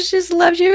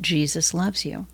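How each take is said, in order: First: The phrase is spoken quickly. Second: The phrase is spoken slowly. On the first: "the first time I said it too fast" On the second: "really slowly"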